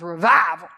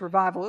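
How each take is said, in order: First: The word is said with dramatic, drawn-out emphasis. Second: The word is said plainly, without extra emphasis. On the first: The word as said in the speaker's spiritual roots. "it was revival. We had to say it like that" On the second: The ordinary word. "It wasn't just revival"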